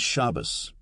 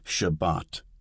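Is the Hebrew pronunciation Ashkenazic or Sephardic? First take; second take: Ashkenazic; Sephardic. First: Ashkenazic pronunciation, stress on the first syllable. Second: Sephardic pronunciation, stress on the second syllable.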